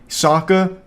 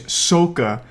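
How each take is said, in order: First: The name is pronounced as in the original show. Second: The name is pronounced as in the film. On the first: The speaker calls it right. "Sokka is Soka" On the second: The speaker calls it wrong. "Everything is wrong"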